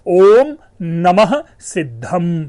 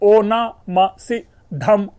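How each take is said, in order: First: The opening is said fully as 'om namah'. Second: The opening is blended into 'ona ma'. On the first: This is the original form. The speaker calls it right. "लेकिन मूल शब्द क्या है" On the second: This is the corrupted folk form. The speaker calls it wrong. "देखिए ओना मा सिद्धम"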